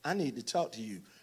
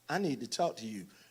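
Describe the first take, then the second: First: It sounds guilty and softly placating. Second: It sounds guilty and softly placating.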